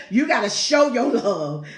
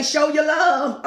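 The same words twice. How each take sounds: First: Said in the usual way. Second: "Show your love" stretched out slowly and pitched higher; slow, lifted "Show your love"; drawn-out emphasis. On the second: Shown as a demonstration. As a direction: lean on "Show your love", each word long and lifted. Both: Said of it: "See how you say".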